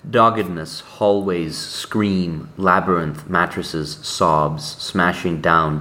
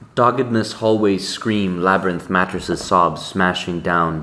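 First: The words are read slowly. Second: The words are read quickly.

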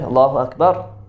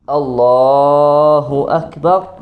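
First: The phrase is said short and fast. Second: The phrase is stretched out and drawn long. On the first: The takbir accompanies coming back up. "it's a quick one" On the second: The takbir accompanies going all the way down. "they elongate the takbir"

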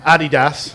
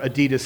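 First: It is said with a British accent. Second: It is said with an American accent.

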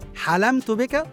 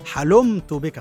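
First: The vowel after the l is a. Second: The vowel after the l is u. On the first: The speaker saw the listener in a dream. The speaker calls it right. "حلمت بك صحيح" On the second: The speaker became forbearing toward the listener. The speaker calls it wrong. "لكن لا تقل حلمت بك ... معناه أنك صرت حليما به"

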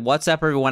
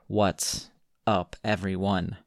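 First: It is said with enthusiastic, high energy. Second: It is said with flat, low energy.

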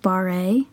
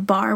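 First: The word is said as two syllables. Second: The word is said as one syllable. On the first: The speaker calls it wrong. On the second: The speaker calls it right.

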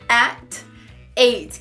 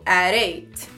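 First: The two words are said separately. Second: The two words are blended into one.

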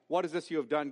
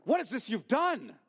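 First: It sounds like a curious request for information. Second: It sounds like an emphatic, accusing rebuke.

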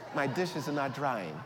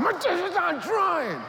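First: It is said in a polite tone. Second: It is said in an angry tone.

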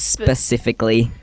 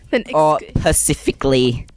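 First: The word starts with an sp sound. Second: The word starts with a plain p sound. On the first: The speaker calls it right. "Come on, guys. It's specifically" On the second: The speaker calls it wrong. "that is annoying. And pacifically"

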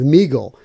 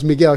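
First: The name is said to rhyme with beagle. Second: The name is said not rhyming with beagle. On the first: The speaker calls it wrong. "sounded it out, and she came up with Meagle" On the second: The speaker calls it right. "no, it's Miguel"

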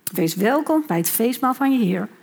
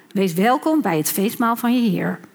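No difference in how they are said.

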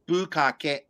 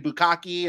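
First: The word is said with Japanese-style sounds. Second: The word is said with English-style sounds. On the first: The speaker calls it right. "It's bukkake" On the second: The speaker calls it wrong. "I've heard people say bukkake and stuff like that"

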